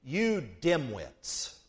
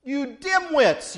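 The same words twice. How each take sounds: First: Very slow, dropped low and soft; Jesus quietly scolding the disciples, drawn out; blunt rebuke. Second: Slow and a bit louder, pressing the word dimwits; Jesus gently scolding, slow and firm; mock scolding. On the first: Acted. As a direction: lay the insult down slowly and quietly. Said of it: "Jesus says to them". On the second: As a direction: lean into the insult, drawn out. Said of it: "Jesus is saying to them".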